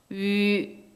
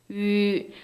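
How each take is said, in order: No difference in how they are said.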